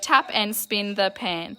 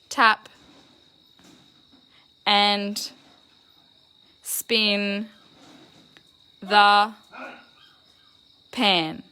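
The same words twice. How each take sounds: First: The sentence is read smoothly and fluently. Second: The sentence is read in choppy, robotic pieces. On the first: The speaker calls it right. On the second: The speaker calls it wrong.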